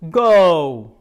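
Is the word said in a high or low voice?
low. The word is said in a deep voice. "Lower voices, go. Nice and deep"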